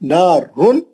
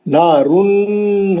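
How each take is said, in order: First: The n is short, without nasal hum. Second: The n is held long with nasal hum. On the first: The speaker calls it right. "नून को जितना जल्दी पढ़े उतना सही है" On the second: The speaker calls it wrong. "नहीं"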